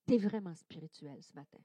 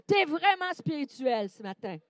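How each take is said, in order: First: Softly modelled. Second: Said in the usual way. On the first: Shown as a demonstration. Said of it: "Donc, dis à ton voisin". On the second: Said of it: "tu peux même dire en arrière de toi".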